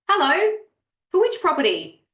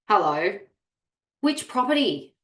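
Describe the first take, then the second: First: It is said in a warm, friendly tone. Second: It is said in a cold, curt tone. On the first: The writer is glad to help. The speaker calls it right. "read it in a positive tone" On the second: The writer is annoyed by the question. The speaker calls it wrong. "read it in a negative tone"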